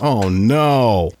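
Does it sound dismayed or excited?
dismayed. It sounds dismayed and disappointed.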